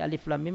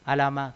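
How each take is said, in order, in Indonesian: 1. Setiap huruf dibaca dengan nama lengkapnya. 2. Hurufnya digabung jadi satu kata, alama.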